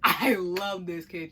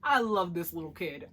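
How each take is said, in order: First: Laughing. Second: Said in the usual way. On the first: Real, not acted.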